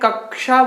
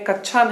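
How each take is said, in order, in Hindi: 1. बीच का संयुक्त अक्षर 'ksh' की तरह बोला जाता है। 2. बीच का संयुक्त अक्षर 'ksh' की तरह नहीं बोला जाता है। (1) "कक्षा बोलते हैं" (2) "कक्षा नहीं बोलते हैं"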